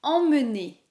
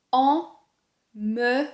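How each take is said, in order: First: Said in the usual way. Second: "Emmener" very slowly as "en... me... né"; syllable by syllable. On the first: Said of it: "Le deuxième mot est". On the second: Shown as a demonstration. Teacher dissecting a word for learners, syllable by syllable. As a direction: split "Emmener" into three held sounds, nasal "en" first. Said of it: "On a une nasale ici".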